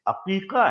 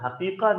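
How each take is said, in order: First: The word starts with a throaty vowel sound. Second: The word starts with an h sound. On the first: The speaker calls it right. "अकीका है, ऐन के साथ है" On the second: The speaker calls it wrong. "ये लफ्ज हकीका नहीं है"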